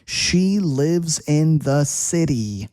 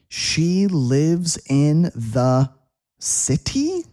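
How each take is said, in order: First: The middle of city has a soft D sound. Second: The middle of city has a crisp T sound. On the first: The speaker calls it right. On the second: The speaker calls it wrong.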